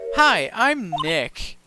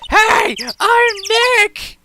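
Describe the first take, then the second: First: It is said at normal, quiet volume. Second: It is said loudly.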